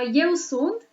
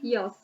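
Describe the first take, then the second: First: Both words are said fully and separately. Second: The words merge into one short syllable. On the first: This is the textbook form. "so neatly and so clearly" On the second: This is casual, friendly everyday speech. "you will hear them say yos"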